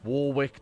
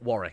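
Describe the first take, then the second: First: The first part 'war' is said fully and stressed. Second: The name is said smoothly, like 'Worrick'. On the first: The character is big and strong. "Emphasis on the war" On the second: This is the usual way to say the name. "you pronounce it Warwick"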